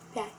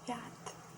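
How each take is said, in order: First: The final T sound is soft. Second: The final T sound is hard and sharp. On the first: The speaker calls it right. "it creates a softer version of a T sound" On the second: The speaker calls it wrong. "with the sharp T in the end"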